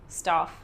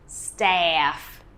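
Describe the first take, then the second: First: The vowel is short and clipped. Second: The vowel is long and drawn out. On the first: The speaker calls it wrong. "you use this very short vowel sound" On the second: The speaker calls it right. "will very much elongate that e for staff"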